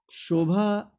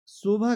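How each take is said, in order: First: शोभा said as "shobha"; slow, clear sh to start शोभा; correct pronunciation. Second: शोभा said as "sobha"; plain s to start शोभा; higher, slow शोभा with no sh; wrong pronunciation. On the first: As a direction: open शोभा on a palatal sh. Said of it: "शोभा सही है". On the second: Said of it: "शोभा गलत है". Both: Shown as a demonstration.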